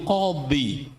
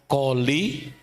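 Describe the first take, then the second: First: The middle consonant is an Arabic emphatic sound. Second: The middle consonant is a plain l sound. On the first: This is the original Arabic title. "gelar tersebut itu Qadhi" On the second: This is how Javanese speakers adapted it. "orang Jawa nggak bisa bilang bot, jadi li"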